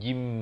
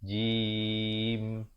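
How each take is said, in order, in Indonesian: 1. Vokal sebelum m di akhir dipotong pendek. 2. Vokal sebelum m di akhir ditahan panjang. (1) "Jangan terus ke mim. Jim. Itu tak betul" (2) "Dia lalu ya dulu"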